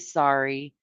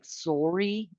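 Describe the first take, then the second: First: It is said in a non-Canadian accent. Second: It is said in a Canadian accent. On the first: "we say sorry" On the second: "they say like sorry"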